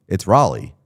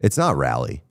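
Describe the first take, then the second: First: Raleigh said RAH-lee, falling; firm "Raleigh" with an AH in front; correct pronunciation. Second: Raleigh said RAL-ee, like rally; wrong pronunciation. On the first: Host correcting the name of Raleigh, right pronunciation. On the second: Host rejecting the rally version of Raleigh, wrong pronunciation. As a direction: lower "not Raleigh", with the A of cat. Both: Shown as a demonstration.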